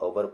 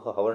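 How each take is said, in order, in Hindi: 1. शब्द सीधे एक स्वर से शुरू होता है। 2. शब्द h ध्वनि से शुरू होता है। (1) "इसको आवर पढ़ा जाता है" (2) "इसको हावर नहीं पढ़ा जाता है"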